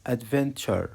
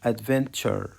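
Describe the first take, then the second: No difference in how they are said.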